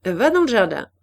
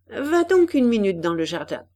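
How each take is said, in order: First: Firm, louder order; stern command, voice raised; more severe. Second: Said in the usual way. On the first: A narrator's reading. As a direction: send the girl off sternly. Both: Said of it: "répéta Juliette avec plus de sévérité".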